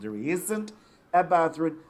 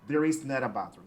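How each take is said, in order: First: The negative is shortened into one contracted word. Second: The negative is said as two separate full words. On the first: "the contracted form" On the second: "the long form"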